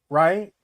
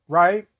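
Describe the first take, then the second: The two takes are said the same way.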